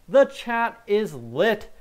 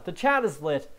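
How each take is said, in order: First: "The chat is lit" stretched slow, higher and louder; drawn-out hype. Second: Said in the usual way. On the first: Real, not acted. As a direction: draw out "The chat is lit" hyped up. Repeats chat remark, drawn out.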